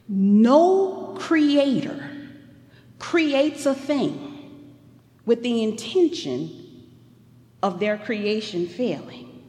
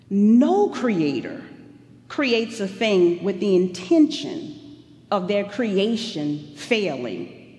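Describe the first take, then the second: First: The sentence is spoken slowly. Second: The sentence is spoken quickly. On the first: The speaker calls it right. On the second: The speaker calls it wrong.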